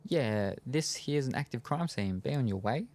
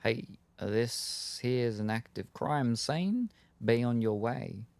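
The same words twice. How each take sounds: First: Mock Brooklyn cop, lilting up at the end; pretend cop. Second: Slow, drawn-out Brooklyn cop; thick Brooklyn accent. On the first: D'Angelo pretends to be a guard in a dry run, mock cop voice. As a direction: play-act a cop waving someone off. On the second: Acted. Cop dismisses a bystander at a crime scene, Brooklyn accent. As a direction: wave them off in a Brooklyn accent, without really yelling. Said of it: "yells in a thick Brooklyn accent".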